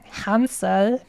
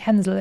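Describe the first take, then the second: First: The name is said with an English vowel. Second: The name is said with a German umlaut vowel. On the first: "I'm pronouncing it as if it was a non-German name" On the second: "Otherwise, it would be Hänsel"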